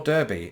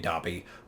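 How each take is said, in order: First: It is said in an American way. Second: It is said in a non-American way.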